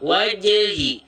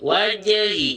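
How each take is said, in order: First: The j sound is released with a bounce. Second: The same.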